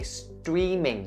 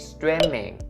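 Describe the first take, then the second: First: The first vowel is a long E sound. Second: The first vowel is a short sound. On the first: The speaker calls it right. "there's the long E sound, so you say streaming" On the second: The speaker calls it wrong. "you don't say streaming"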